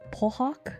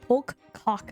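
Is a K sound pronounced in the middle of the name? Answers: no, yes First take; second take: no; yes. First: No K sound is pronounced in the middle. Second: A K sound is pronounced in the middle.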